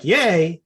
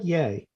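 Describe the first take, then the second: First: It is said with excited enthusiasm. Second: It is said flatly, without excitement.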